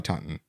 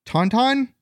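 First: Said in the usual way. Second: "Taunton" as two drawn-out equal beats, rising; higher, slow, questioning "Taunton", both syllables full; unsure pronunciation. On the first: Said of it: "Probably Taunton". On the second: Real, not acted. Guesses at town's pronunciation.

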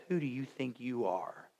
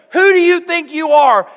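First: Much lower and softer, a cold sneer; scornful put-down. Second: Much higher and louder, each word hurled; angry shout. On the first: Older brother sneering at David: quiet scorn. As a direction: say it low with quiet contempt. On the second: Older brother Eliab putting David down: furious shout. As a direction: bellow it as an outraged big brother. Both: Acted.

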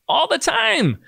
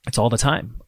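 First: "All the time" jumped way up high in pitch; exclaiming "All the time" high on "time"; emphatic repeat. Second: Said in the usual way. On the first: Real, not acted.

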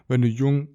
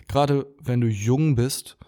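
First: Holding back a burp. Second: Said in the usual way. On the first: Real, not acted. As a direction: voice tight from a coming burp. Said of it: "ich muss aufstoßen". (gegen ein Aufstoßen ansprechen) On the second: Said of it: "oh, sorry Leute".

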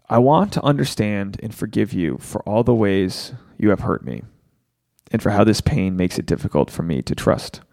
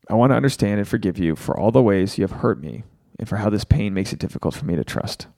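First: Slow, low, deliberate read of a forgiveness vow; slow recitation. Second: The vow said again faster and smoother; quicker recitation. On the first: Host guiding viewers through a forgiveness vow, slow and low. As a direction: lead the listeners word by word through the vow. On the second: Host repeating the forgiveness vow for viewers, faster and smoother. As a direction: run through the whole vow in one go. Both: Shown as a demonstration. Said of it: "So say this with me".

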